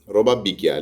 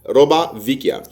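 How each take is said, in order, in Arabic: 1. الكلمة الثانية تبدأ بصوت b. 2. الكلمة الثانية تبدأ بصوت v. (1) "الايطالي بتاع جنوب ايطاليا روبا بيكيا" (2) "بالايطالي المفروض تبقى روبا فيكيا"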